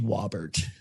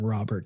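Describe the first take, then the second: First: The name starts with a W sound. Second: The name starts with a clear R sound. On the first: "he had trouble with the R sound. And it would be W" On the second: "instead of saying Robert"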